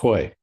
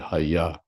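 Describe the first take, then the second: First: The word is one syllable with an 'o' vowel. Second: The word has two syllables, both with an 'a' vowel. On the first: This is how Bengali actually reads the spelling. "because it's Bengali, it's Hoy" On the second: This is how Sanskrit would read the spelling. "if that were Sanskrit, it would be Haya"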